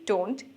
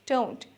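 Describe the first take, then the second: First: The vowel is a plain, unchanging 'o' sound. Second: The vowel glides into a short 'oo' sound. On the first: The speaker calls it wrong. "আমরা অনেকে বলি ডোন্ট" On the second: The speaker calls it right. "আসলে উচ্চারণটা ডোন্ট, ও এর পর ছোট্ট একটা উ sound আছে"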